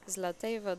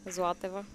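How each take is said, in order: First: The name is said in an anglicized way. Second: The name is said in its native-language way. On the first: People would still know who is meant. "that's good enough. It's not exactly how I say it in my uh, language" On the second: Nobody would know who is meant. "the way I would pronounce it"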